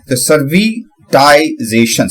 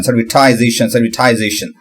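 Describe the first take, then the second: First: सर्विटाइजेशन stretched slowly, syllable by syllable; slow careful pronunciation. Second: Said in the usual way. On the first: Shown as a demonstration. Learner practising a hard word slowly. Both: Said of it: "इस तरीके से मैं इसकी बोलने की practice".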